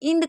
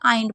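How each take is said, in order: First: The vowel is a short 'i' sound. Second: The vowel is a long 'eye' sound. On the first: The speaker calls it wrong. "इंड कभी मत पढ़िएगा" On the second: The speaker calls it right. "आइंड पढ़िएगा"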